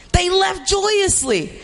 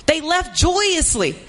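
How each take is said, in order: First: Joyously said high and slow; joyously lifted. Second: Said in the usual way. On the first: Shown as a demonstration. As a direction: lift the word joyously with delight.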